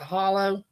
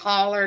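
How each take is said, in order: First: The word ends in an 'oh' sound. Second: The word ends in an 'er' sound. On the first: This is the way it is said outside the South. "not a hollow" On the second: This is the Southern way of saying it. "down here in the South, we call that a holler"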